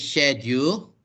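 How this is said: It is said with a British accent. "the British will say"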